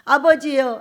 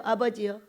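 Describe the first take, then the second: First: Loud pleading call; pleading cry. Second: Quieter, fading plea; softer plea. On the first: Esau begging his father, loud lament. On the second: Esau begging his father, softer repeat. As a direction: let the second call sink. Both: A narrator's reading. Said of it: "울며 슬피 울며".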